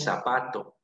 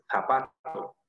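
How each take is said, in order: First: "zapato" with the Z said as S; S sound opening "zapato"; seseo. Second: "zapato" starting with a th sound; th-like Z opening "zapato"; Castilian Z. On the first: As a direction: say "zapato" the Peruvian way, starting on an S. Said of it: "con S". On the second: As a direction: say "zapato" as in Spain, tongue between the teeth on the Z. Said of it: "zapato con Z". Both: Shown as a demonstration.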